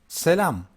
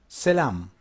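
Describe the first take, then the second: No difference in how they are said.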